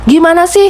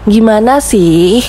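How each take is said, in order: First: It is said loudly and angrily. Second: It is said softly and gently. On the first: The person is angry. "suara yang lantang, ... Itu tandanya oh dia marah" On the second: The person shows affection and understanding. "karena halus"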